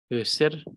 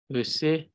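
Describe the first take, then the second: First: Öser ending in a rolled r. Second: Öse with the r barely there; subtle ending. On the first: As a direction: roll the r of Öser. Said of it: "trying to include the rolling R sound". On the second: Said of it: "second syllable in a very subtle manner". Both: Shown as a demonstration.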